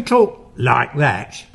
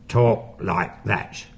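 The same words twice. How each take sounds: First: Said in the usual way. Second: Low, slow demo of the false-fold voice; false vocal fold voice. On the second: Shown as a demonstration. Showing listeners how the poltergeist voice was made, low and slow. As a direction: drop low and drag it out from the false vocal folds. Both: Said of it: "you only use that when you".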